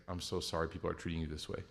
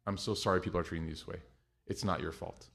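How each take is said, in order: First: Much softer and lower, gentle; tender apology. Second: Low, soft and a bit quick; soft reassuring. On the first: Mom to the airline agent, soft and sorry. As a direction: soothe a stressed worker kindly. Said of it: "she would say, like". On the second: Mom comforting the agent, soft reassuring. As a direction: comfort them quietly. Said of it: "she wouldn't even start with the flight". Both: Retold or imitated.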